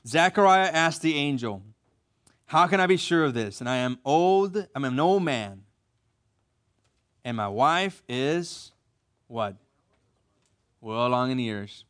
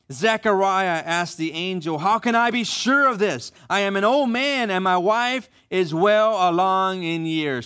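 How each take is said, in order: First: Slow, deliberate reread, lingering on the age; slower reading. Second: Said in the usual way. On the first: Shown as a demonstration. Pastor rereading so the men catch it, slow and pointed. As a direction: take your time and let the pauses show his tact. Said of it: "read it again slower and check out how he says". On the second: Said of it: "I'm gonna read it again slower".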